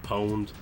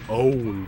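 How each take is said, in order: First: The word starts with a p sound. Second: The word starts with a vowel sound. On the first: "I like saying pwned" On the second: "a lot of O G gamers will pronounce it owned"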